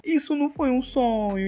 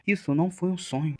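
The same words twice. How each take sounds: First: Higher, lightly voiced young woman; Suha's inner voice. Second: Said in the usual way. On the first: Suha realizing it wasn't a dream, higher thought voice. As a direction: lift it up into the heroine's thought.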